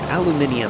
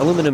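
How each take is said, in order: First: The word is said with five syllables, aluminium. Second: The word is said with four syllables, aluminum. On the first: The speaker calls it right. "if you want to be really correct here, it'd be aluminium" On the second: The speaker calls it wrong. "Aluminum is actually just a slang uh, pronunciation. It's not correct at all"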